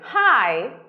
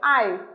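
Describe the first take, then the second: First: The word begins with an h sound. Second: The word begins without an h sound. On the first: "Some people want to say I, hi" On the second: "They say what? I"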